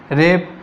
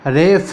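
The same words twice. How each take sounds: First: रेप with a plain प, the mistaken form; wrong pronunciation. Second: रेफ said with a clear breathy फ at the end; correct pronunciation. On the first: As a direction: say रेप with a hard प as the error to avoid. (रेप को सादे प के साथ, गलत उच्चारण की तरह) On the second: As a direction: say रेफ with f-like फ, not प. (रेफ को फ की ध्वनि के साथ साफ़ बोलें) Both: Shown as a demonstration. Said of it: "ना कि तुम लोग इसको रेप समझ लो".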